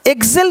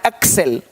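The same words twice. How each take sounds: First: "एक्सेल" with a voiced gz in place of ks; wrong pronunciation. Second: "एक्सेल" with a crisp voiceless ks; low, falling "एक्सेल", said ek-sel; correct pronunciation. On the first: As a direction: mispronounce "एक्सेल" as egzel. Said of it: "एक्सेल नहीं पढ़ना है". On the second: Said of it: "तो आपको ये पढ़ना है". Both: Shown as a demonstration.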